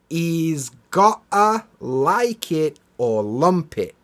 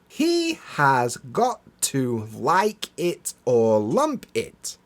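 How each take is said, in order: First: The words are squeezed together with reduced sounds. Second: Each word is pronounced separately and in full. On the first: "as we would naturally pronounce it" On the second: "I'll say it as it's written"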